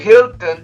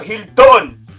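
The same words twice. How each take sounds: First: The stress is on the first syllable. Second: The stress is on the last syllable. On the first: The speaker calls it right. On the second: The speaker calls it wrong.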